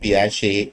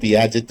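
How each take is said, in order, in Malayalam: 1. ഈ പേര് ഒരു t ശബ്ദവുമില്ലാതെയാണ് അവസാനിക്കുന്നത്. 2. ഈ പേര് ഉച്ചരിക്കുന്ന t ശബ്ദത്തോടെയാണ് അവസാനിക്കുന്നത്.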